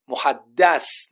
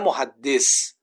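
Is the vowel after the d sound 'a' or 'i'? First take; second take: a; i. First: The vowel after the d is a. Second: The vowel after the d is i. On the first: He is the one spoken to. The speaker calls it right. "محدث نه محدث" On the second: He is the one who speaks. The speaker calls it wrong. "نه محدث"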